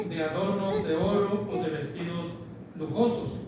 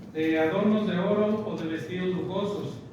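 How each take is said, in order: No difference in how they are said.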